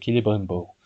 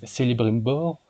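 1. Le premier C se prononce comme un K. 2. Le premier C se prononce comme un S. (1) "comme Tolkien voulait les C en K" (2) "ou bien vous prononcez Celebrimbor"

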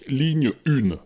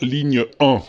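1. Le chiffre se dit avec la forme féminine 'une'. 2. Le chiffre se dit avec la forme masculine 'un'. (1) "tout le monde le dit" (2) "On devrait dire ligne 1"

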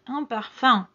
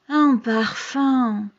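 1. Suena asqueado y negativo. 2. Suena melancólico y añorante. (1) "vamos a asco" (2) "es una nostalgia"

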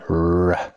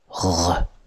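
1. 'r' मुँह के आगे से बनता है। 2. 'r' गले के पीछे से बनता है। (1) "In English, R comes from the front of your mouth" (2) "but in French, it comes from the back of your mouth"

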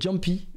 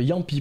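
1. Le nom commence par un son 'dj'. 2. Le nom commence par un son 'y'. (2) "ça se prononce Yampy"

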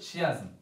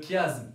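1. Le mot commence par un son sh. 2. Le mot commence par un son k. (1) "on ne prononce pas le son CH" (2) "on prononce KE"

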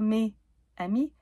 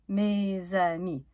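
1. Mes et amis se disent sans liaison en z. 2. Mes et amis se disent avec une liaison en z.

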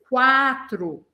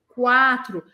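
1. Um som de 'w' vem depois do som de k. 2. Um som de 'w' vem depois do som de k.

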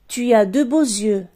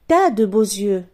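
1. La voyelle de 'tu' est entièrement prononcée. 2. La voyelle de 'tu' est totalement supprimée.

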